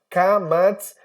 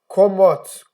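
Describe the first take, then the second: First: The vowels sound like 'a'. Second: The vowels sound like 'o'. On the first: This is how it is said in everyday modern Hebrew. "os dois com som de A" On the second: This is the old Hebrew reading. "seria uma coisa mais puxada pro ó"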